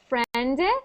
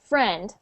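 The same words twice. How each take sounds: First: A small extra vowel follows the final consonant. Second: The word stops sharply on the final consonant. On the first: The speaker calls it wrong. "you were saying like a little sound after" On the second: The speaker calls it right. "just say it like friend, and it ends at the friend"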